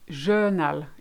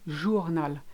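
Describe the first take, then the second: First: The first vowel is an 'e' sound. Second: The first vowel is an 'oo' sound. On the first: The speaker calls it wrong. "all I hear normally, it's journal. It's not E" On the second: The speaker calls it right. "it's O"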